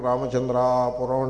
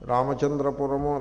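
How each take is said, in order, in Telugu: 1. 'puram' ముందున్న అచ్చు దీర్ఘంగా సాగదీయబడింది. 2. 'puram' ముందున్న అచ్చు హ్రస్వం.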